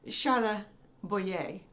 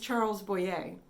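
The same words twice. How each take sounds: First: The name is said with French sounds. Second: The name is said with English sounds. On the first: "He's French. And if you want to be really correct" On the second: "The actor's name is"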